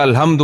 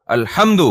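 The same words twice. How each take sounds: First: Said in the usual way. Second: الحمد, ح squeezed from the throat; throaty Arabic h. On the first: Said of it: "وہ پھر کہتا ہے". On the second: Retold or imitated. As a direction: say الحمد with a hard guttural ح, lightly imitating the qari. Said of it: "حلق سے نکالو".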